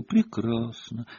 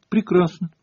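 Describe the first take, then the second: First: Slow, softer, drawn-out retort; pointed repeat. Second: High-pitched, indignant single word; curt retort. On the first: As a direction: stretch the word out quietly and pointedly. Hermione repeats it, packing up. (медленно, тихо, подчёркнуто) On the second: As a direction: toss it out sharply, offended. Hermione snaps back at teacher. (высоко, обиженно и отрывисто) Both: A narrator's reading.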